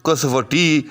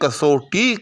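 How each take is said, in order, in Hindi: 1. बीच की ध्वनि 'va' अक्षर की तरह बोली जाती है। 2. बीच की ध्वनि 'au' स्वर से बोली जाती है। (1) "तो बिल्कुल बेबहर हो जाएगा" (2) "इसका जो दुरुस्त लफ्ज़ है वो कसवटी नहीं है बल्कि कसौटी है"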